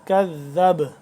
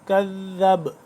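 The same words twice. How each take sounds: No difference in how they are said.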